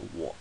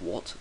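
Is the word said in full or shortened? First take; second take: shortened; full. First: The word is said in a shortened form. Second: The word is said in its full form. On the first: "they'll say what" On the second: "instead of what"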